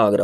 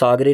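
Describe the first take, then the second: First: आगरा said with a final long a; correct form. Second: आगरे said with a final e sound; wrong form. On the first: Teacher giving students the right form, आगरा with long final a. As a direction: say आगरा clearly, ending on a long aa. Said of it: "आगरा होता है". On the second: Teacher voicing the wrong spelling for students, आगरे with final e. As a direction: read out आगरे, ending on e. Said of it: "Ramesh आगरे नहीं होता". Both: Shown as a demonstration.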